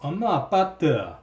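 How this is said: It is said in a Gyeongsang dialect accent.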